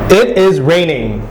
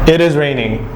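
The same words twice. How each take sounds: First: The pitch rises on the word raining. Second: The pitch stays flat and monotonous throughout. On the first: "instead of there being a fall, there was a rise" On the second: "sounds very monotonous, dull, and tedious"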